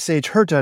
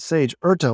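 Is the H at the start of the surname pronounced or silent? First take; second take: pronounced; silent. First: The surname begins with an audible H sound. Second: The surname begins with a vowel, H silent. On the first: The speaker calls it right. "you'd think that Sage Herta would be Sage Herta" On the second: The speaker calls it wrong. "not Sage Erta, like they were saying"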